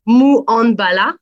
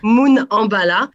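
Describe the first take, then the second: First: Says Mou Ambala slowly and carefully, stressing Mou; Creole name attempt. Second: Says Moon Ambala slowly, a long oo in Moon; corrected Creole name. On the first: Interviewer apologising for accent, careful Creole name attempt. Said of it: "désolé pour mon accent créole". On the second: Interviewer repeating the guest's correction, careful pronunciation. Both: Real, not acted.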